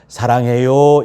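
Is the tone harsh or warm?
warm. It is said in a warm, gentle tone. The speaker truly means it kindly. The speaker calls it right. "이렇게 사랑해요 이거보다"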